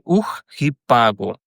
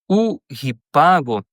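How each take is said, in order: First: The first word ends in a harsh throaty consonant. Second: The first word ends in a plain vowel. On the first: The speaker calls it right. "eu preciso dizer" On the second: The speaker calls it wrong. "em vez de eu dizer"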